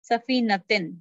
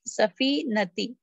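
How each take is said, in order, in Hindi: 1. शब्द के अंत में n की आवाज़ जुड़ी होती है। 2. शब्द स्वर पर खत्म होता है, n नहीं। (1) "अगर ये भारी होता तो क्या होता?" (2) "ये हल्का है"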